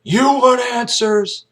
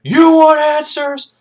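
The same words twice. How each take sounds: First: High, slow taunting question; challenging taunt. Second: Very high, loud, slow bellow; shouted taunt. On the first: Jessup baits Kaffee with a slow, raised taunt. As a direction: dare him, drawing it out. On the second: Jessup roars the taunt back at Kaffee. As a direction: blow it up into a roar. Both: Retold or imitated. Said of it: "He's like".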